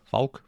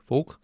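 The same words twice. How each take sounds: First: "Folk" with an open "ah" vowel; alternative pronunciation. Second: "Folk" with a rounded "oh" vowel; alternative pronunciation. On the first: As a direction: try "Folk" as "fahlk", tentative rising end. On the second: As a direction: try "Folk" as "fohk". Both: Shown as a demonstration. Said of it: "However you say it in British".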